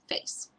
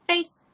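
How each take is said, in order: First: It is said in a bored, dull tone. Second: It is said in an excited, happy tone. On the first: The dog should put its face in the muzzle. The speaker calls it right. "Kind of boring, dull" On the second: The dog would think a toy is being thrown. The speaker calls it wrong. "I don't want to say face like chase"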